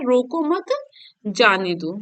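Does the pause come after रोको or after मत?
after मत. There is a pause right after मत. Do not stop him; let him go. "मतलब उसको रोको मत, उसको जाने दो"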